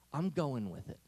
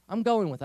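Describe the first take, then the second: First: Said in the usual way. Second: "I'm going with it" said louder and firmer, with stress on "going"; firm resolve. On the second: Shown as a demonstration. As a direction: commit to it, punching "going".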